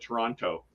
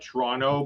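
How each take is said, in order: First: It is said the way outsiders say it. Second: It is said the way locals say it. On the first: Someone unfamiliar with the city says it. "for someone that doesn't know it, they call it Toronto" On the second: Someone who knows the city says it. "for people that know Toronto, is we call it Toronto"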